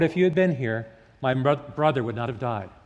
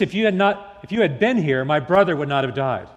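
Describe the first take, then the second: First: The voice sounds quietly resigned and sad. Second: The voice sounds sharply reproachful and accusing. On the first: She accepts the loss quietly. "Did Martha say that with words of resignation?" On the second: She blames Jesus for not coming. "Or did she say those words with words of reproach?"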